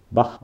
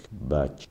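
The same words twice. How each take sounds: First: Bach with a German throaty "kh" ending; corrected Bach. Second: Bach said as "batch"; mispronounced Bach. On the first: Correcting own slip on a name, corrected Bach. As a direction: say Bach as "bakh", not "batch". Second take corrects the first. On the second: Listing linked words aloud, mispronounced Bach. Says the name, then corrects it. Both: Real, not acted.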